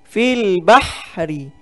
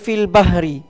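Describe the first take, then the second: First: The h is a harsh sound from the throat. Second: The h is a plain, light breath sound. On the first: The speaker calls it right. "itu adalah ha pedas" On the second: The speaker calls it wrong. "ramai yang baca fil bahri. Bah dengan ha"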